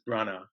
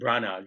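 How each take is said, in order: First: The name ends with an open vowel sound. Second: The name ends with a pronounced consonant sound. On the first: The speaker calls it right. "you don't pronounce it. It's just ah" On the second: The speaker calls it wrong. "not Ken Branagh"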